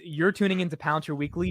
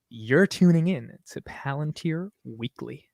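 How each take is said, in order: First: It is said in his normal speaking voice. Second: It is said in a put-on radio-announcer voice.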